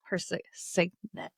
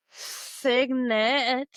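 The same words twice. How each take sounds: First: "si-, signet" broken off and restarted slowly; stumbling pronunciation. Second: "signet" said slowly and carefully, each syllable placed; careful pronunciation. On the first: Real, not acted. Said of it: "stumbling over the word". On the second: Shown as a demonstration. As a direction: land "signet" cleanly after a pause. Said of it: "I said it right".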